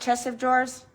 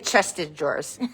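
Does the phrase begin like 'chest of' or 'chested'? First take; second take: chest of; chested. First: The word 'of' is heard after 'chest'. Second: 'Chest' runs into '-ed' with no 'of'. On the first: The speaker calls it right. "It's right, chest of drawers?" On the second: The speaker calls it wrong. "I used to say chested drawers. That's not the way you say it"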